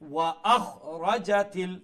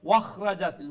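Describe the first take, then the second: First: The glottal stop is pronounced clearly and strongly. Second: The glottal stop is dropped, running the words together. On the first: The speaker calls it right. "হামজারে আরো স্পষ্ট করে উচ্চারণ করবা" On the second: The speaker calls it wrong. "এটার সাউন্ড কি তোর ওয়াখরা জাতিল"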